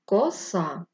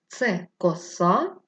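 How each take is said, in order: First: Said in the usual way. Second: Коса drawn out slowly, stress on the second syllable, rising like a question. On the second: Shown as a demonstration. Teacher asking pupils where the stress falls in коса, slow and stressed. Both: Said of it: "Поставимо наголос".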